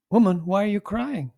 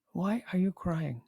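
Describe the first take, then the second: First: Raised, searching question to the woman; Jesus asking gently. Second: The same question again, much softer and tender; soft repeat. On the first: Jesus questions weeping Mary at the tomb, searching. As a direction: ask her as the risen Lord would. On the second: Jesus repeats his question to Mary, softly and tenderly. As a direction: let it fall to a gentle near-hush. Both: Acted.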